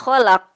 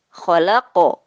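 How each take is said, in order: First: The final q sound stops flat without echo. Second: The final q sound bounces with a short echo. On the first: The speaker calls it wrong. "tidak ada pantulannya karena terburu-buru" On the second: The speaker calls it right. "huruf-huruf yang memantul"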